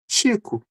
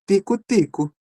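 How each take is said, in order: First: The first consonant is a 'ch' sound. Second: The first consonant is a plain 't' sound. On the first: "O T e o X, né, viram um som" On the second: "também é possível a pronúncia de tico-tico"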